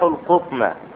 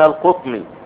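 First: The word ends with a short a vowel. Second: The word ends with a short i vowel. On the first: The word is the object of the verb. "في المثال الثاني جاءت منصوبة على آخرها فتحة" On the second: The word follows a preposition. "في المثال الثالث جاءت مجرورة وعلى آخرها كسرة"

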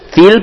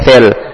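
First: The vowel is pronounced like i. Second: The vowel is pronounced like e. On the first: The speaker calls it right. "fil pakai i" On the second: The speaker calls it wrong. "bukan fil"

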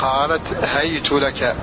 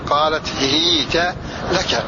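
First: The word begins with hay and ends in tu. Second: The word begins with hi and ends in ta. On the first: "بفتح الهاء وبعدها ياء ساكنة مع ضم التاء" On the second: "بكسر الهاء مع فتح التاء مع سكون الياء"

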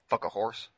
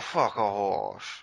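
First: It is said in the speaker's normal voice. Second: It is said in a put-on cowboy voice.

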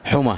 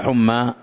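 First: The word ends with a short vowel. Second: The word ends with a long vowel. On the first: The speaker calls it right. "بضم الحاء، ... وفتح الميم ومع التاء المربوطة" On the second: The speaker calls it wrong. "ليس حمى"

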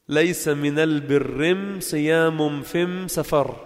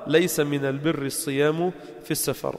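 First: The definite article is pronounced with an m sound. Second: The definite article is pronounced with an l sound. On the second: This is the standard form of the saying.

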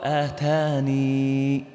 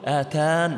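First: The word ends with a final 'ee' vowel. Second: The word ends without a final 'ee' vowel. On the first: The final ya is kept, unvowelled, when pausing. "أثبت الياء مع الإسكان" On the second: The final ya is dropped when pausing. "إذا وقفت تقول آتان، هذا الحذف"

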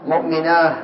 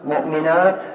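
First: The word ends with an h sound. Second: The word ends with a t sound. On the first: This is the pausal form some Arabs use. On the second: This is the pausal form most Arabs use.

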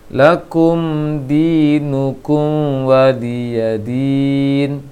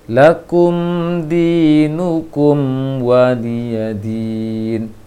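First: The m blends into the following w sound. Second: The m is held with lips fully closed first. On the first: The speaker calls it wrong. "Apa yang salah diperhatikan adalah ... kurang sempurna nutup bibirnya" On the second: The speaker calls it right. "jangan dimonyongkan langsung"

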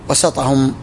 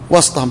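First: The s sound is followed by an a vowel. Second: The s sound has no vowel after it. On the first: The position is the middle of something not of its kind. "فإنه يكون بالفتح" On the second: The leader stands among them, one of their kind. "وسطهم بالتسكين"

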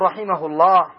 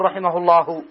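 First: The phrase stops without a final vowel. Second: The phrase ends on a final vowel. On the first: The speaker calls it right. "لكن إذا وقفت تقول رحمه الله" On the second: The speaker calls it wrong. "ما تقول رحمه الله"

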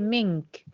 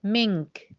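Both takes have the same delivery.

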